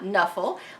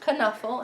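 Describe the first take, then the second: First: The word begins with an n sound. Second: The word begins with a k sound. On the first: The speaker calls it wrong. "not Nuffle, like I had been pronouncing it" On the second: The speaker calls it right. "it is pronounced Knuffle"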